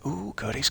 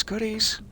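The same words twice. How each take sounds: First: Said in the usual way. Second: Goodies squeaked very high; high squeal on goodies; squeaky high goodies. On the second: Shown as a demonstration. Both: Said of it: "Probably not the way to say it".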